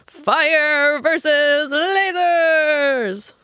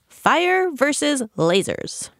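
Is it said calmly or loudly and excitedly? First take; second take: loudly, excitedly; calmly. First: It is said loudly, filling a stadium. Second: It is said in a calm, plain voice.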